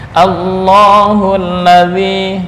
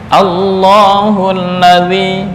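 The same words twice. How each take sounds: No difference in how they are said.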